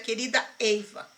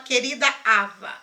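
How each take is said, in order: First: The name begins with an 'ay' vowel. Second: The name begins with an open 'ah' vowel. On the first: This is the English way to say it. "traduzindo para o inglês é Querida Eiva" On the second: This is how it looks written on the cover. "Vocês vão ler na capa Querida Ava"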